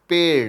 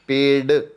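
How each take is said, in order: First: The final consonant is a flapped sound. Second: The final consonant is a plain d sound. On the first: The speaker calls it right. "दूसरा है पेड़, तो ये सही है" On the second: The speaker calls it wrong. "ड की आवाज है"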